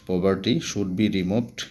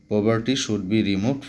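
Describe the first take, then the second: No difference in how they are said.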